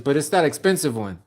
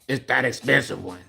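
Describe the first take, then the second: First: It is read in his normal voice. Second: It is said in a put-on mechanic voice.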